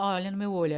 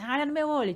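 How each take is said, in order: First: It is said in a gentle, loving tone. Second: It is said in a scolding, fighting tone.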